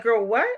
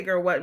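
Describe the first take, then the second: First: Mock-incredulous rise at the end; acted disbelief, questioning; incredulous reaction. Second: Said in the usual way. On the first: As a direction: voice a disbelieving relative, rising sharply on "what". Acting out family's shocked reaction.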